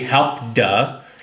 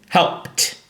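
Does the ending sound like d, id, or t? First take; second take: d; t. First: The word ends in a voiced d sound. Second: The word ends in a voiceless t sound. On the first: The speaker calls it wrong. "It's not going to be help duh" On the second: The speaker calls it right. "but it's helped"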